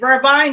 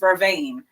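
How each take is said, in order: First: The last syllable rhymes with 'line'. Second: The last syllable rhymes with 'rain'. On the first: This is the local Jamaican name. The speaker calls it wrong. "Jamaicans call it vervine" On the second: This is the standard name. The speaker calls it right. "the correct pronunciation"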